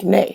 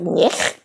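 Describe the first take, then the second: First: It is said with a 'nay' sound. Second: It is said with a 'nyeh' sound. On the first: The speaker calls it right. "I pronounce it nay" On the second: The speaker calls it wrong. "a Russian tries to read it phonetically. It's like nyeh"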